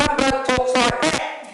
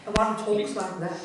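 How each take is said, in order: First: Loud, higher, drawn-out mock enthusiasm; super-enthusiastic presenter. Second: Slow, lightly mimicked enthusiastic presenter. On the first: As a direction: mimic an over-excited wildlife presenter at full volume. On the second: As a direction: imitate the second keen wildlife host, less forcefully. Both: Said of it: "They're both super enthusiastic".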